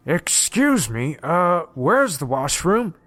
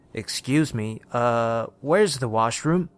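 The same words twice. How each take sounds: First: Slow, exaggerated British mimicry; mock British accent. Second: Put-on hesitant British young man; British accent. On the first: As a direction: draw out a hammed-up British accent, mocking someone. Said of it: "He said it in a British accent, mocking the guy". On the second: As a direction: ask politely in a British accent. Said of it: "He had a British accent".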